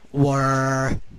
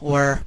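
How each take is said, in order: First: The word is drawn out long. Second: The word is said short and quick.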